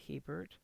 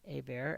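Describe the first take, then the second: First: The name is pronounced in an English way. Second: The name is pronounced in a French way.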